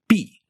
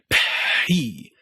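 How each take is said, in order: First: No puff of air follows the p. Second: A long puff of air follows the p. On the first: "you could start the vowel immediately, as soon as your lips pop open" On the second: "you could take a really long time before you started the vowel"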